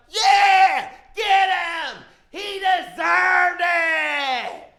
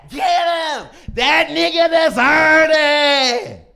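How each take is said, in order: First: High shouted cheer, last words stretched slow; mob shout. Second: Shouted high, dragged out slow; mob shout. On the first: The whole world cheering the pictures, high slow shout. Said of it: "the whole world is like". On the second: Crowd yelling approval at a beating, slow and shouted. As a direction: yell it like an angry crowd egging on a fight. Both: Retold or imitated.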